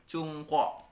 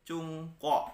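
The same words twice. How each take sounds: No difference in how they are said.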